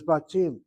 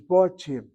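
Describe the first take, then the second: First: The first vowel is an open 'a' sound. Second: The first vowel is a rounded 'o' sound. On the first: This is how everyone commonly says it. "we've pronounced the word as batim" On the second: This is probably the correct reading. "The word probably is botim"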